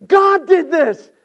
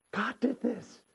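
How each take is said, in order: First: Very high, loud declaration; shouted proclamation. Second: Soft, raised-pitch near-whisper; hushed awe. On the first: Joseph realizing God's hand in it, shouted proclamation. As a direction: proclaim it at full preaching force. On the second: Joseph realizing God's hand in it, hushed awe. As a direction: drop to a hush after the climax. Hushed repeat after shouted climax. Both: Acted.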